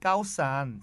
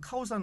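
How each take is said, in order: First: It is said with a Thai-style tonal accent. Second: It is said flat, in plain Korean style. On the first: Taxi drivers understand it. The speaker calls it right. "이렇게 액센트를 넣어서 얘기를 하면 알아듣습니다" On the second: Taxi drivers do not understand it. The speaker calls it wrong. "대부분 갸우뚱하고"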